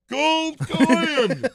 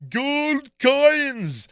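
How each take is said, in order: First: Gasp, then a high loud Scottish duck shout; Scottish accent. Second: Loud high Scottish Scrooge voice, shouted; Scottish accent. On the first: Imitating Scrooge McDuck for friends, loud Scottish accent. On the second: Scrooge McDuck shouting about gold in a Scottish accent. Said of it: "this guy goes". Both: Retold or imitated.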